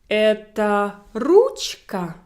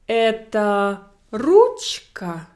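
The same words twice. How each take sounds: First: It is said with question intonation. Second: It is said with question intonation.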